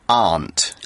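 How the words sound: The vowel is long and open, as in British speech. "in the U K, we say aunt"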